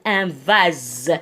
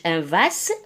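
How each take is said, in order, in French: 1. Le s se prononce comme un z sonore. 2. Le s se prononce comme un s sifflant. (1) "نقول un vase هنا يتنطق Z" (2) "ما نقولش"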